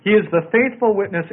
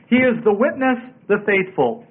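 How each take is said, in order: First: Said in the usual way. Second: WITNESS set apart and raised, then THE FAITHFUL; emphatic. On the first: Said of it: "It's more en-, emphatic in the original". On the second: Shown as a demonstration. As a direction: land "witness" and "the faithful" as two emphatic phrases. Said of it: "emphatic in the original".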